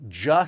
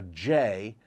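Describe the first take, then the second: First: J sounded out as "juh". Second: Said in the usual way. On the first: Shown as a demonstration. Memory coach teaching the sound for six, J said "juh". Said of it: "the J sound". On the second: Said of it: "or a J".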